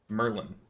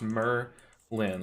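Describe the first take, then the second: First: The two syllables run together in one flow. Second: The two syllables are said clearly apart. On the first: The speaker calls it right. "it's supposed to be said Merlin, Merlin, like one flow" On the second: The speaker calls it wrong. "I say it as two very distinct syllables"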